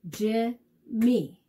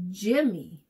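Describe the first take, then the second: First: "Jimmy" split into two separate beats; syllable by syllable. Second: Said in the usual way. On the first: Shown as a demonstration. Teacher helping kids count syllables, "Jimmy" broken syllable by syllable. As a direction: clap out "Jimmy" with a gap between syllables. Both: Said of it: "fun to clap out the syllables".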